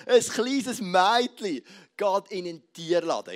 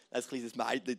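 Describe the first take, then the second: First: Slow, louder theatrical storyteller. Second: Said in the usual way. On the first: Shown as a demonstration. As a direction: ham it up like a stage actor. (theatralisch, langsam und lauter) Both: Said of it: "tönt noch ein bisschen theatralischer".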